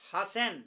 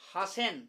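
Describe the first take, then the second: Both takes have the same delivery.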